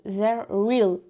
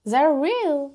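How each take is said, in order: First: Zero Real said the French way, flat and even; first embarrassed try at Zero Real; French-accented brand name. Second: Zero Real said higher in a mock English accent; a playful corrected take of Zero Real; put-on English accent. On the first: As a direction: read Zero Real plainly as a French speaker would. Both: Shown as a demonstration. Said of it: "oh punaise, mon accent".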